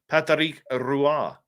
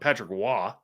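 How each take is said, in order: First: The surname begins with an R sound. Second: The surname begins without an R sound. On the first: The speaker calls it right. "So the R is actually pronounced" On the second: The speaker calls it wrong. "Not Patrick Waugh"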